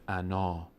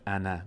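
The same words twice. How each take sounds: First: انا said "anaa", last vowel held long; low, lengthened ending on انا; long final alef. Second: انا said "ana" with a short ending; short final vowel. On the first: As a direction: stop on انا with a full "aa". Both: Shown as a demonstration.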